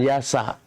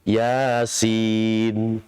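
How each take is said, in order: First: "yasa" read with short vowels as if vowel-marked, the wrong way; wrong vowelled reading. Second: "Yasin" read as two letter names, ya-sin. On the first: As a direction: say "yasa" with a short a on each letter. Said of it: "Kalau yasa itu diharokati". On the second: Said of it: "kita bacanya nama hurufnya". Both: Shown as a demonstration.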